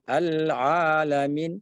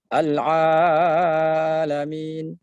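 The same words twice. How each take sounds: First: Al-Alamin with the a held two beats; correct length. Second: Al-Alamin with the a stretched far too long; overlong a. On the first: Teacher giving the right length. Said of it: "cukup dua harakat". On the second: Teacher showing the overlong mistake. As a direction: drag out Al-Alamin too much. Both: Shown as a demonstration.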